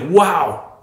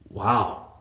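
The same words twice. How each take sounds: First: Wow sounds impressed and delighted. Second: Wow sounds disappointed and incredulous.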